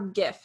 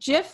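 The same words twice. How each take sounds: First: It begins with a hard G sound. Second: It begins with a soft J sound.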